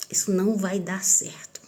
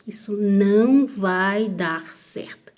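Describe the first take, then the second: First: Said in the usual way. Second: "Isso não vai dar certo" slow, each word weighted; emphatic repetition. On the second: Retold or imitated. Girl warning herself about her stepfather, slow emphatic resolve.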